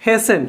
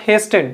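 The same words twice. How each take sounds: First: HASTEN said as HAY-sen; HASTEN, no T after the S; silent T. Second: HASTEN said as HAYS-ten; wrongly sounded T. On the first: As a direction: say HASTEN with the T dropped. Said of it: "T is silent". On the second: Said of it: "it is not hasten". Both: Shown as a demonstration.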